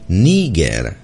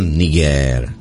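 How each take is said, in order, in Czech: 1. Přízvuk je na první slabice. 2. Přízvuk je na druhé slabice. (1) "je správná výslovnost s přízvukem na první slavice" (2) "o rok později 1987 to už byl Niger"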